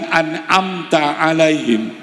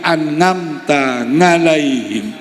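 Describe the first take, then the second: First: The second word begins with a vowel. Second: The second word begins with an ng sound. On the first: "tidak bisa bilang an'amta alaihim" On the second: "asli Jawa Medok"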